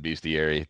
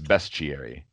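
First: The first syllable sounds like 'beast'. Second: The first syllable sounds like 'best'. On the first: The speaker calls it wrong. "I was saying beast. I've always said bestiary" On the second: The speaker calls it right. "it's bestiary"

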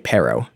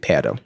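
First: It is said with an American accent. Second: It is said with a Spanish accent. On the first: It reveals that the speaker comes from elsewhere. The speaker calls it wrong. "like Americanized versions" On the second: It sounds like a native speaker. The speaker calls it right. "It's going to be perro"

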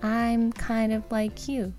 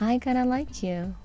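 First: "Kind of" is said fully, not shortened. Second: "Kind of" is clipped short into "kinda".

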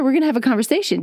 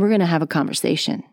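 First: The voice is pitched high and bright. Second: The voice is pitched low and deep. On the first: The speaker is excited. "if I'm really excited and I'm up here" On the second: The speaker is being serious. "I'm going to go a little bit lower"

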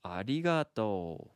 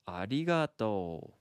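First: The r sounds like a blend of r, d, l. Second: The r sounds like a blend of r, d, l.

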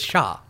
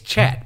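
First: The word is pronounced the French way. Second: The word is pronounced the English way. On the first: "if you're gonna pronounce it like French" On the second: "if you're gonna pronounce it like English"

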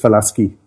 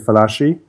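First: The name is pronounced in an Italian way. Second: The name is pronounced in an anglicized way. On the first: This is how the family said it. The speaker calls it right. "The correct pronunciation is" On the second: This is how most people say it. The speaker calls it wrong. "most people say"

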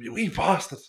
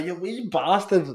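First: It is said in an annoyed, scolding tone. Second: It is said in a warm, pleased tone. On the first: The person made a mistake. "Or if somebody fucks up" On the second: The person did something nice. "It can be a good thing"

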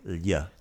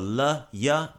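First: The two sounds flow together as one. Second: The two sounds are split with a break. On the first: The speaker calls it right. "you want to make them flow like lya" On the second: The speaker calls it wrong. "you don't want to go la, ya"

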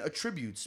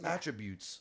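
First: The stress is on the second syllable. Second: The stress is on the first syllable. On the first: The speaker calls it wrong. "Like a tribune" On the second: The speaker calls it right. "no, it's attributes"

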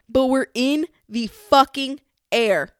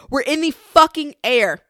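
First: It is said with ordinary emphasis. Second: It is said with much stronger emphasis.

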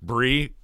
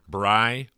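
First: The vowel rhymes with glee. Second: The vowel rhymes with lie. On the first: "Bree, full of glee" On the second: "Bri rhymes with lie"

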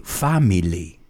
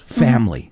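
First: The word is said with three syllables. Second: The word is said with two syllables. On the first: The speaker calls it wrong. "like it's three syllables" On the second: The speaker calls it right. "Two syllables"

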